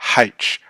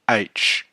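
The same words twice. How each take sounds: First: The letter name begins with an h sound. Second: The letter name begins with a vowel sound. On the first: The speaker calls it wrong. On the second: The speaker calls it right. "the correct pronunciation H"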